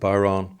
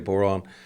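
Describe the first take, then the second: First: It is said the southern Irish way. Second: It is said the northern Irish way. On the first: "In the south, they call it the" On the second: "In the north, we say"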